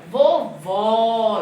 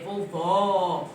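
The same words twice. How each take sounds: First: "vovó" louder and slow, wide open ó. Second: "Vovó" with an open ó. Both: Shown as a demonstration. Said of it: "eu falo forte".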